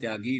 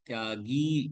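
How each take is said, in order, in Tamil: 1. கடைசி உயிர் குறில். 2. கடைசி உயிர் நெடில். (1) "தியாகி இல்ல" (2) "தியாகி கீ நெடில் எழுத்து"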